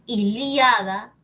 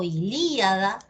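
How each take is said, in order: First: I-LIA-da, stressed on the A; Ilíada as i-LIA-da, lifted at the end. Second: I-LÍ-a-da, stressed on the Í; ilíada with a drawn, stressed LÍ. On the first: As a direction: say Ilíada with IA as one syllable. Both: Shown as a demonstration. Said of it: "depende de ti cómo lo quieras decir".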